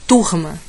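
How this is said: The r is a dragged, breathy sound. "Nordeste. ... Dá uma arrastada e vai embora"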